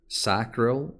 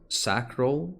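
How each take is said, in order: First: It is said with an American pronunciation. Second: The same.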